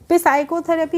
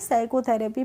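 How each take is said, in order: First: The word begins with a p sound. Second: The word begins with an s sound. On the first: The speaker calls it wrong. "पे साइकोथेरेपी नहीं पढ़ेंगे" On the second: The speaker calls it right. "साइकोथेरेपी पढ़ेंगे"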